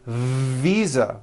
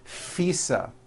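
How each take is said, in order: First: The first sound is a voiced V. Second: The first sound is an unvoiced F. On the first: The speaker calls it right. "visa with a voiced V" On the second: The speaker calls it wrong. "I said visa with an unvoiced F"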